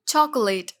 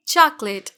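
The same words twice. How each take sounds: First: चॉकलेट with a rounded "aw" vowel; wrong pronunciation. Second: चॉकलेट with an open "aa", CHAAK-let; correct pronunciation. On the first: Teacher shows learners the mistake, mispronounced. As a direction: say चॉकलेट as CHAWK-late. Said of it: "wrong". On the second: Teacher corrects the word, clearly pronounced. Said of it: "इसका correct pronunciation है". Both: Shown as a demonstration.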